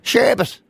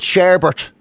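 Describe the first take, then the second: First: The second syllable has no R sound. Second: The second syllable has an R sound. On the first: The speaker calls it right. "There's no second R" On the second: The speaker calls it wrong. "I always said sherbet"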